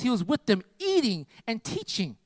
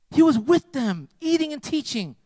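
First: Slow drawn-out phrase. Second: "eating" lifted high and ringing; emphatic repeat. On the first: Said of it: "repeats the phrase for emphasis". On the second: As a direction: hammer the repeat home, higher. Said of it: "repeats the phrase, raised". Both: Acted.

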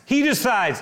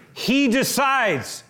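First: He decides said again, a little quicker and lighter; repeat with light stress. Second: He decides, slow, with HE raised and hit hard; stress on HE. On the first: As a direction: say it again, easing off the weight. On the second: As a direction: lean hard on the word he, draw it out. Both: Shown as a demonstration. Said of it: "listen to me".

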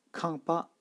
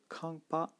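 First: Kampa high on both syllables; two high tones. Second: Kampa again high on both syllables; two high tones. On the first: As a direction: hold kampa high throughout. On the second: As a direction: repeat kampa high and even. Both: Shown as a demonstration. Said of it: "donc deux tons hauts".

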